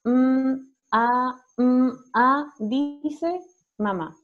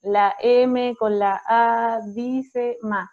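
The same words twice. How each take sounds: First: "Mm" sostenido y "a" separados, solo el sonido; sonidos de las letras. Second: "la M con la A", lento, cada letra por su nombre; deletreo con artículos. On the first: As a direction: alargar "Mm" y luego "a", sin nombrar la letra. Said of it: "lo que nosotros sugerimos es". (decir "Mm, a" como sonidos puros, no nombres de letras) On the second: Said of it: "en donde uno dice". (deletrear "la M con la A" a la antigua, muy despacio) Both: Shown as a demonstration.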